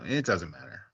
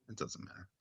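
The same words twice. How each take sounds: First: Said in the usual way. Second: Near-silent whispered dismissal; under his breath. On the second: Real, not acted. Host drops his speculation about the picture, whispering. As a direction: drop it to a whisper, as if to yourself.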